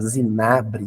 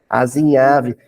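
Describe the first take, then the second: First: It starts with z and has a b sound. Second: It starts with a and has a v sound. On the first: The speaker calls it wrong. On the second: The speaker calls it right.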